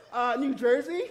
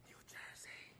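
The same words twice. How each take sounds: First: Loud, high answer with a questioning lift; confident. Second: Sly whispered prompt. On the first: Pupil giving the teacher the wrong answer, loud and confident. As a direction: answer up loudly, sure of yourself. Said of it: "She was so confident". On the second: Class clown feeding a classmate the wrong answer, whispered. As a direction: whisper it very softly, without voice. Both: Retold or imitated.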